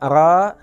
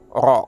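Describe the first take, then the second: First: The r is said thin with a light vowel. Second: The r is said thick with a rounded vowel. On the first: The speaker calls it wrong. "bukannya ra" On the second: The speaker calls it right. "tapi ro"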